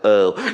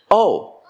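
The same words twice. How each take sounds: First: It sounds flat and unenthusiastic. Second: It sounds genuinely surprised.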